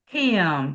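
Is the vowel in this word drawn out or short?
short. The vowel is short and plain.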